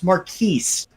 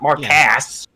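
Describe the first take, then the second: First: The name ends in a 'keys' sound. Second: The name ends in a 'kus' sound. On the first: The speaker calls it right. "It's it's Marquise" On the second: The speaker calls it wrong. "not Marcas"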